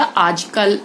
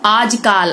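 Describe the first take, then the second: First: Said in the usual way. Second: आजकाल with long "aa" in "kaal"; mispronounced vowel. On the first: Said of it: "आजकल होता है". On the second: Shown as a demonstration. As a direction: draw out the last vowel of आजकाल. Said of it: "आजकाल नहीं होता".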